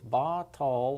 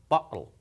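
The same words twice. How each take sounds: First: The word flows as one smooth sound. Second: A brief catch of silence cuts the word. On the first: "which flows, all one sound" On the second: "sort of a catch in your voice, like a pause"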